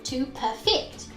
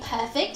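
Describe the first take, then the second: First: The stress is on the second syllable. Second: The stress is on the first syllable.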